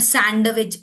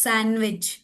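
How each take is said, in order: First: Sandwich with the d sounded, san-duh-wich; wrong pronunciation. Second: Sandwich with silent d, san-wich; correct pronunciation. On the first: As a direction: voice the d in sandwich as its own beat. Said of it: "it's not sandwich". (sandwich में d बोलकर, सैंडविच) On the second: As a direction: drop the d in sandwich. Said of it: "it's sandwich". (sandwich में d silent, सैनविच) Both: Shown as a demonstration.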